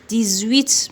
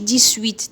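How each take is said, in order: First: The x is pronounced as a z sound. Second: The x is pronounced as an s sound. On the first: The speaker calls it right. "اكس ننطقوه زد" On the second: The speaker calls it wrong. "ما نقولوش ديسويت"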